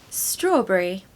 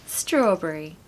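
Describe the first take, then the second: No difference in how they are said.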